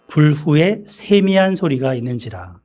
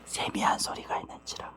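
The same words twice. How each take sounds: First: Said in the usual way. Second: Very soft whispered reading. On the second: Shown as a demonstration. Preacher showing the congregation the still small voice, whispered. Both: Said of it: "속삭이는 소리 있죠".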